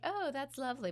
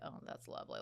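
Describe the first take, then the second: First: It is said in a pleasant, sincere tone. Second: It is said in a snide, edgy tone. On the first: The words are meant kindly. "your words may sound nice" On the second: The speaker is annoyed despite nice words. "Like you know the tone"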